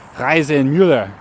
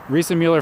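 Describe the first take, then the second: First: The name is said with German pronunciation. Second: The name is said with English pronunciation. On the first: The speaker calls it right. "in German it would be" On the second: The speaker calls it wrong. "I guess I pronounce it wrong"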